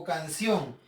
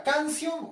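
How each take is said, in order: First: "canción" stressed on its ending, canCIÓN; stress on last syllable. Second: "Canción" wrongly stressed on CAN, as CÁNcion; stress on first syllable. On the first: Teacher offering pupils the right option, "canción" stressed on CIÓN. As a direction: land firmly on the CIÓN of "canción". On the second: Teacher testing pupils on the tonic syllable, "Canción" stressed on CAN. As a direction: punch the CAN of "Canción", leaving ción weak. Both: Shown as a demonstration. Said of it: "¿cuál será la sílaba tónica?".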